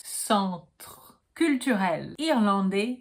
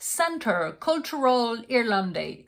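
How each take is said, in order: First: Slow French "Centre Culturel Irlandais", nasal "en", silent final S; pronúncia correta. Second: Slow, anglicized "Centre Culturel Irlandais" with "SEN-ter"; pronúncia errada. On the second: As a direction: say "Centre" as English "center". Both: Shown as a demonstration. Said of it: "Here is how to pronounce".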